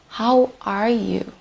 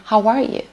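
First: Said in the usual way. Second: "How are you?" with a light rising end on "are"; native-style greeting. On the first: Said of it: "Instead of saying". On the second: Shown as a demonstration. Teacher showing a native greeting, rising tune. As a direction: lift "are" and let the question rise casually. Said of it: "you can say".

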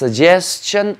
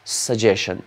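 First: Suggestion said as sug-jes-un, a plain s in the middle; suggestion with an "s" sound. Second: Suggestion said as sug-je-shun, soft sh ending; suggestion with a "sh" sound. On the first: Teacher telling students both pronunciations are fine, sug-jes-un. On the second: Teacher giving students the second accepted pronunciation, sug-je-shun. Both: Shown as a demonstration. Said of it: "You can pronounce it as suggestion or".

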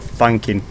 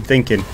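First: "thanking" with an A vowel; slip of the tongue. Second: "thinking" with a short I vowel; corrected word. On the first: Streamer musing on himself, "thanking" with an A vowel. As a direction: say "thanking" in place of thinking. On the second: Streamer correcting himself, "thinking" with a short I vowel. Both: Real, not acted. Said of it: "Not thanking, thinking".

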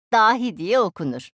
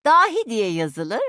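First: "dahi diye okunur" with weight on "diye", falling at the end; falling conclusion. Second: "Dahi diye yazılır" slow and loud, rising at the end; yükselen ezgi. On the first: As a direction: close firmly downward on "okunur". ("okunur" sonunda alçalan, kesin ezgi) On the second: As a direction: leave "yazılır" hanging upward, drawn out. ("yazılır" sonunda yükselen, ağır ve güçlü ezgi) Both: Acted.

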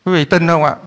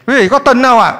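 First: Said in the usual way. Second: Raised, higher-pitched question to the congregation; rousing repeat of the question; insistent call. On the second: Real, not acted. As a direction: press them for an answer, pitched up. Repeats question to get a response.

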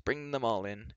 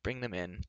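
First: Resigned, with more weight on ALL; sighed. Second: Soft, resigned sighing voice; sighed. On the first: Reluctant host admitting everyone, sighing emphatically. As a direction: wearily stretch out "all". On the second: Reluctant host letting the companions in, softly sighing. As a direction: give in wearily, softly. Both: A narrator's reading. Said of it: "he sighed".

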